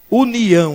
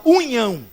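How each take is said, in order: First: "união" in clear syllables, u-ni-ão; careful, correct "união"; correct pronunciation. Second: "união" squashed into "unhão"; mock slurred "união", like "unhão"; mispronunciation. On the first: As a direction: say "união" with a clean n and separate i. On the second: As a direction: say "união" wrongly as "unhão", n and i merged. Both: Shown as a demonstration. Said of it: "Não fala união".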